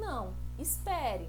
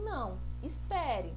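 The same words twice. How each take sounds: First: There is a pause after não. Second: The same.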